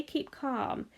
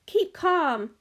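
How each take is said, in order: First: Soothing quiet. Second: Calling out calm. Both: A narrator's reading. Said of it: "cried Mister Wonka".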